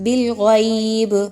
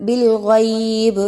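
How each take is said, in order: The two takes are said the same way.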